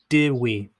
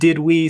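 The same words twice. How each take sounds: First: The final D of 'did' is dropped. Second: The final D of 'did' is clearly pronounced.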